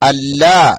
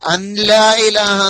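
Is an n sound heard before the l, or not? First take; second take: no n; n sound. First: No n sound; the l is doubled. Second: An n sound is heard before the l. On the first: The speaker calls it right. "നൂന് വേണ്ട" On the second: The speaker calls it wrong. "എന്ന് പറയരുത്"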